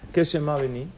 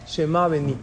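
First: «qué» acentuado, «Shema Beni» como pregunta; pregunta al grupo. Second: «Shema Beni» dicho como afirmación, tono que cae; enunciado. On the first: (maestro pregunta «¿Qué es Shema Beni?» a los alumnos) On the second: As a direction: anuncia «Shema Beni» con firmeza. («Shema Beni» afirmado, cayendo al final) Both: Shown as a demonstration.

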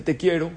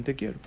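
First: "Te quiero" said a bit louder, stress on "quiero"; the girlfriend's half-hearted "Te quiero"; "quiero" pressed, noncommittal; lukewarm reply. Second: "Te quiero" softer, rising on "quiero" like a shrug; understated "Te quiero", rising at the end; quiet echo of the answer. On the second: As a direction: hand back the girlfriend's "Te quiero" quietly. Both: Shown as a demonstration. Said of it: "cuál va a ser el nivel de la relación".

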